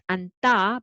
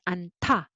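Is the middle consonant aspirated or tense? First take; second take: tense; aspirated. First: The middle consonant is tense, without a puff of air. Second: The middle consonant is aspirated, with a puff of air. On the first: The speaker calls it wrong. "it is not anta" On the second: The speaker calls it right. "but anta"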